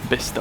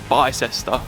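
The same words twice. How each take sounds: First: The name is said in a shortened form. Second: The name is said as it is spelled. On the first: The speaker calls it right. "Weird pronunciation" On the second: The speaker calls it wrong. "not Bicester"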